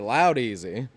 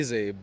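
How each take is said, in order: First: The name begins like the word 'loud'. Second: The name does not begin like 'loud'. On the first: This version fits the speaker's own accent better. "So I like to say loud easy" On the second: This is the name's original pronunciation. "the proper pronunciation is Ladeezy"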